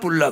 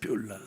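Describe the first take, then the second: First: The first syllable starts tense, without a glide. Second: The first syllable has a y glide. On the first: The speaker calls it wrong. "뿔라 그러는 건 성질 났다 이런 얘기예요" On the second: The speaker calls it right. "뷸라라고 해요"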